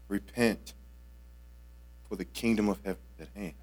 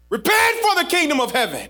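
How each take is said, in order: First: It is said softly and gently. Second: It is said forcefully, like an exclamation.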